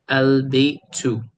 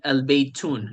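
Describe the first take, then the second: First: The word ends with a plain u vowel. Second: The word ends with an n sound. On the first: The speaker calls it right. "the ending is a is a u sound" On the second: The speaker calls it wrong. "so we do not say al baytun. No, that's wrong"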